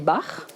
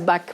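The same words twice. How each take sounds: First: The name is said with a German pronunciation. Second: The name is said with a French pronunciation. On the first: "je le prononce à l'allemande" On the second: "Les Français disent Bach"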